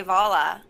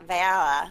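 First: "Vala" with an open ah, like "Volla"; own pronunciation. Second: "Vala" with a flattened a, like "Valla"; imitated accent. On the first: Shown as a demonstration. Friend showing how they would say the name, demonstrating. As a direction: say "Vala" with a rounded, back first vowel. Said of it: "I would say Vala". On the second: Friend showing the speaker's accent on the name, imitating. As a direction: mimic "Vala" with the a of "valley". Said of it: "There's the accent".

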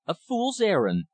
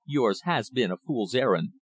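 First: High-pitched, indignant echo; exclaimed echo. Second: Said in the usual way. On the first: A narrator's reading. Visitor echoing the rich man's dismissal, exclaiming. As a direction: throw the words back in a high exclamation. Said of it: "I echoed".

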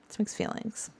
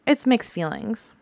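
First: Whispered to yourself; whispered echo. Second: Said in the usual way. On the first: Shown as a demonstration. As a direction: whisper it back, almost silent.

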